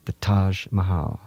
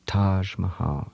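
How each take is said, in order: First: Said in the usual way. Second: Taj Mahal murmured softly and slowly; hushed, slow, reverent Taj Mahal; said quietly. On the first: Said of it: "Remember those two words". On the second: Shown as a demonstration. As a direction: savour Taj Mahal like a secret. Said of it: "just say them quietly to yourself".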